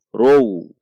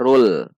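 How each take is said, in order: First: The syllable ends with a w-like sound instead. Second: The syllable ends with a clear heavy l sound. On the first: The speaker calls it wrong. "Kalau dibaca row, berarti itu wawu" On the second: The speaker calls it right. "ini dibaca rul, lam"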